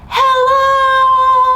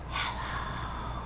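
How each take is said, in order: First: It is said very loudly. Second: It is said very quietly.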